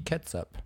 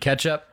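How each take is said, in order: First: The word is said with a final s-up sound. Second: The word is said with a ch-up sound. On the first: It sounds fancy and upscale. "excuse me, sir, do you have any ketsup?" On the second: It sounds ordinary and common. "Not, do you have any ketchup?"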